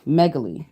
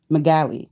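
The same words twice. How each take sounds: First: Megaly said as MEG-uh-lee, stress on the first syllable; Megaly with meg stressed and a weak middle; second ending option. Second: Megaly said as meh-GAL-ee, stress on the middle; megaly with a short a, stressed gal; first ending option. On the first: Trying the other ending for chat, careful. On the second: Trying one way to end the word, tentative. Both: Shown as a demonstration. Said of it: "the two ways I can see that ending".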